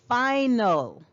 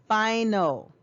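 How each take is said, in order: Both takes have the same delivery.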